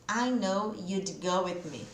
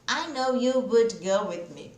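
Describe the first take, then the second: First: 'Would' is reduced to a d sound. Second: 'Would' is said as a full separate word. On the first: The speaker calls it right. "Esse you'd, ó, you'd, só o som do D" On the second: The speaker calls it wrong. "Dá muito mais trabalho falar separado"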